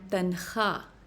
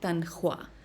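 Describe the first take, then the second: First: The kh goes straight into the vowel, no w. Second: A w sound follows the kh before the vowel. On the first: The speaker calls it right. "and tankha" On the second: The speaker calls it wrong. "not tankhwa"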